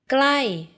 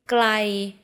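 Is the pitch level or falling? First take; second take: falling; level. First: The pitch rises slightly then falls. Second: The pitch stays level and mid. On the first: It means near. "glai means near" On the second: It means far. "Glai means far"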